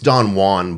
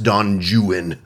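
First: The name is given its usual, non-British pronunciation. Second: The name is given its British English pronunciation. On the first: "It's Don Juan" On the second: "it's pronounced Don Juan in British English"

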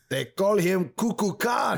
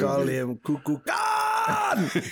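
First: The name is said in an ordinary voice. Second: The name is said with a dramatic movie lilt.

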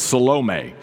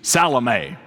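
First: The stress falls on the middle syllable. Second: The stress does not fall on the middle syllable. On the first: "in the Greek, the accent is on the middle syllable" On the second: "translate Salome into South Central Kentuckyese"

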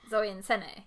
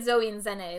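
First: The second name starts with an S sound. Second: The second name starts with a Z sound. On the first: The speaker calls it right. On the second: The speaker calls it wrong.

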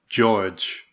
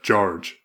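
First: The R sound is left out of the word. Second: The R sound is clearly pronounced in the word. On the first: The speaker calls it wrong. "he's going like George ... totally missing the R" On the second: The speaker calls it right. "instead of George"

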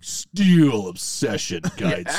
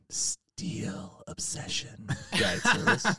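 First: It is said in a booming announcer voice. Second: It is said in an eerie, chilling way. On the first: "I wish I had like an actual, like, real, like, announcer's voice. I'd be like" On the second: "That just creeped me out a little bit. I got the chills when he said it like that"

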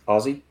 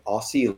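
First: The middle consonant is a buzzing z sound. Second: The middle consonant is a hissing s sound. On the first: The speaker calls it right. "basically replace the S's with Z's" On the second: The speaker calls it wrong. "Why do you say it so weird?"

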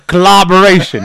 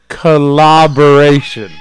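First: The word is said at a quick pace. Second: The word is said at a slow pace. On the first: "I thought you were saying clobberation" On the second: "Say it slower"

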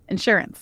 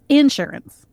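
First: It is said with general stress placement. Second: It is said with Southern stress placement.

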